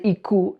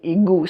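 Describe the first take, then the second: First: The middle consonant is a clear k sound. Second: The middle consonant is a voiced g sound. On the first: "when you say iku" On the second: "when you say it quickly, as being igu"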